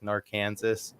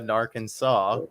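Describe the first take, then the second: First: The name ends with a harsh 's' sound. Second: The name ends without an 's' sound. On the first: The speaker calls it wrong. "adding that harsh in on there" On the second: The speaker calls it right. "I'll go ahead and correct your pronunciation"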